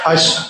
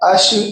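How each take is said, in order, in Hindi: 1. अंतिम sh की आवाज़ को पक्का रोका जाता है। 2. अंतिम sh की आवाज़ को ढीला छोड़ा जाता है। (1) "बल्कि वहीं रोकना है" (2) "उसको आपने अश ऐसे ढीला नहीं करना है"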